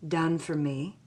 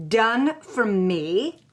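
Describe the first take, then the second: First: Said in the usual way. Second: Slow, rising disbelief on Done for me?; incredulous repeat. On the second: Retold or imitated. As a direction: stretch out Done for me? in outrage. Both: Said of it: "I say".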